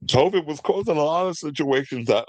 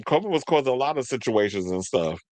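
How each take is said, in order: First: Talking through a real yawn, higher pitch; words swallowed up by a yawn. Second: Said in the usual way. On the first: Real, not acted. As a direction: let a yawn stretch the words. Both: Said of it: "I'm yawning on camera".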